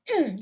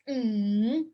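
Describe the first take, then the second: First: The pitch drops sharply from high to low. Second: The pitch dips down and then rises. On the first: "that's the fourth tone. Drop down. It's like you're angry" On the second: "That's third tone. You go down and up"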